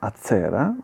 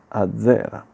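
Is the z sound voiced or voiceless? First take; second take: voiceless; voiced. First: The z is voiceless, like ts. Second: The z is voiced, like dz. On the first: The speaker calls it wrong. "non è azzera" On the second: The speaker calls it right. "Sonora, ma è azzera"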